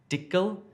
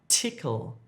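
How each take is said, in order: First: The word begins with a d sound. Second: The word begins with a t sound. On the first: The speaker calls it wrong. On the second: The speaker calls it right.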